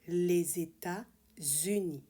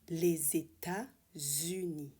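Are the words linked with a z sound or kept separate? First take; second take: linked; linked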